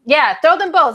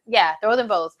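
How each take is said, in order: First: Quoting [name]. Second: Said in the usual way. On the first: Retold or imitated. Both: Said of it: "That's what [name] said".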